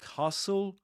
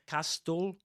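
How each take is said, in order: First: The t sound is silent in the middle. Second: The t sound is pronounced in the middle. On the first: The speaker calls it right. "you say castle. Yeah, you don't pronounce the t there" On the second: The speaker calls it wrong. "just like you don't say castle"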